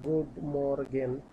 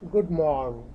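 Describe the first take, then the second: First: The g in the second word is hard. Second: The g in the second word is soft. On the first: The speaker calls it wrong. "ইংলিশের মতো পড়েন" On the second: The speaker calls it right. "জির উচ্চারণটা সফট হয়ে গেছে"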